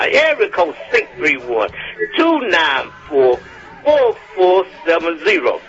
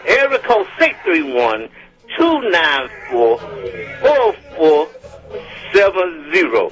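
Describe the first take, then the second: First: Said in the usual way. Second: Phone number read out slowly with longer pauses; careful, slowed dictation of a number; slower repeat. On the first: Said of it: "in case I went too fast". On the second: Real, not acted. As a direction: space out the digit groups for someone writing them down. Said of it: "gonna do it again in case I went too fast".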